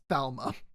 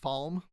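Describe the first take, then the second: First: The name ends with an extra vowel. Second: The name ends on a consonant sound. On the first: This is how the audiobook says it. "audiobook I've heard it as Falma" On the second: This is how the show says it. "Nynaeve pronounced the city Falm"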